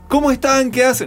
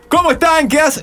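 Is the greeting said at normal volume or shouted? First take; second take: normal; shouted. First: It is said at a moderate volume. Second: It is shouted loudly. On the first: The speaker calls it wrong. "Pero aparte no es" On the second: The speaker calls it right. "Gritando de verdad"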